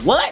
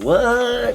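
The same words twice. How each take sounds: First: It is said in a hyped, excited tone. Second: It is said in a sarcastic, teasing tone.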